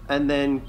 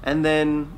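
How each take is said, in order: Both takes have the same delivery.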